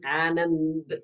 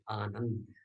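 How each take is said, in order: First: The second syllable has the vowel of 'band'. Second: The second syllable has the vowel of 'fund'. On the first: The speaker calls it wrong. "They say Anand because N A N D is na" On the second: The speaker calls it right. "then he would have got the right pronunciation"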